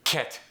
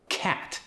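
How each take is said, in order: First: Cat with a puff of air on the c, Korean accent; higher, Korean-accented cat, aspirated. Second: Said in the usual way. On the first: Shown as a demonstration. Coach showing how someone from Korea says it, Korean accent. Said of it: "it's gonna get that puff of air". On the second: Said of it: "When someone from Korea says it".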